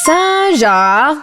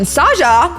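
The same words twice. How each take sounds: First: The vowel is said long. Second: The vowel is said short. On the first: It means an envoy or emissary. "you pronounce the word with a longer vowel" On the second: It means a lion. "which is the lion version"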